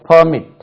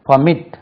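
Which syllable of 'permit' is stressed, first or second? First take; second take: first; second. First: The stress is on the first syllable. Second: The stress is on the second syllable. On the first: It is used as a noun. "அந்த நவுனுக்கு permit" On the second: It is used as a verb. "Stress lies on எம்"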